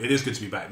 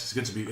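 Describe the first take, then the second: First: "is" given full weight, uncontracted; stress on IS. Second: Said in the usual way. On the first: Real, not acted. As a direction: lean on "is". Restated with the verb stressed.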